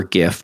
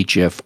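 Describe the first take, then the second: First: Gif said with a hard g, as in "gift"; hard-g pronunciation. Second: Gif said with a soft g, like "jif"; soft-g pronunciation. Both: Shown as a demonstration. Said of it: "your choice of pronunciation".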